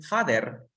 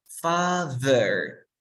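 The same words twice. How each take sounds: First: "father" with a hard D in the middle; wrong D pronunciation. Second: "Father" drawn out with a buzzing th; tongue between the teeth in the middle of "Father"; voiced TH demo. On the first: Teacher shows what it is not, wrong D pronunciation. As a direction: say "father" as "fader", tongue behind the teeth. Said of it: "No es un father". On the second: Teacher shows how papá is pronounced in English, voiced TH demo. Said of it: "se pronuncia de la siguiente manera". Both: Shown as a demonstration.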